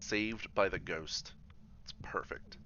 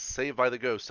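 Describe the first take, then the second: First: Drawn out slowly, savoring each word; slow, savoring relief. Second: Louder, gleeful retelling of being saved; gleeful retold cheer; retold excited relief. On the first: Real, not acted. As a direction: let the line stretch out in slow relief. Reacts to ghost saving him. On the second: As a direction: relive the moment with a louder cheer. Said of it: "and I was like, Yes".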